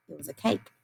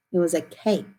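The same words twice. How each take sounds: First: It was a cake repeated much softer. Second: Said in the usual way. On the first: Shown as a demonstration. Teacher softly repeats the answer cake to the class. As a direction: echo It was a cake gently, under the breath. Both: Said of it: "do you remember what our picture card was".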